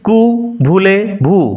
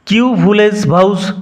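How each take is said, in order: First: It sounds like 'koo voolay voo', with silent letters. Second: It sounds like 'kew vooles vows', with every letter sounded. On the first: The speaker calls it right. "এটা ফরাসি উচ্চারণ কু ভুলে ভু" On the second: The speaker calls it wrong. "এরকম উচ্চারণ হবে না"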